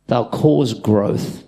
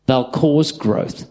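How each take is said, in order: First: "cause" drawn out slowly; slow, emphatic. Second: "cause" stressed, falling at the end; repeated, falling. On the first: Preacher stressing the point to the church, slow. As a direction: spell it out word by word. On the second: Preacher repeating for the congregation, stressed. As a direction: say it again to drive it home. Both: Shown as a demonstration.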